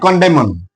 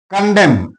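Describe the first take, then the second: First: The final N sound is pronounced. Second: The final N sound is silent. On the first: The speaker calls it wrong. "not condemn" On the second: The speaker calls it right. "N is silent here"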